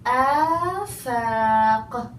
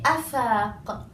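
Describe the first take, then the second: First: The first vowel is long. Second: The first vowel is short. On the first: The speaker calls it right. "I say afaq. Long alif" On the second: The speaker calls it wrong. "I don't say afaq"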